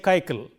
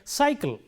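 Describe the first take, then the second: First: Both c letters are said with a k sound. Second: The first c sounds s, the second k. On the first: The speaker calls it wrong. "nor do we say kaikal" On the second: The speaker calls it right. "this letter stands for the S sound and this letter stands for the K sound"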